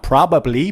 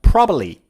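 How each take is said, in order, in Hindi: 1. दोनों B ध्वनियाँ साफ़ बोली जाती हैं। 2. दूसरी B ध्वनि छोड़ दी जाती है। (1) "Not probably" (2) "Native speakers remove the second B"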